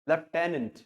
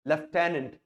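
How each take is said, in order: First: It is said in a British accent. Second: The same.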